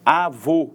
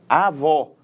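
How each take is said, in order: First: Avô with a closed, rounded final o; closed vowel in Avô. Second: Avó with an open final o, as in "pó"; open vowel in avó. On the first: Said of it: "dá uma ideia de som fechado". (Avô com o som do ô fechado) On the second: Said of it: "De som aberto é o acento agudo". (avó com o som do ó aberto) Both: Shown as a demonstration.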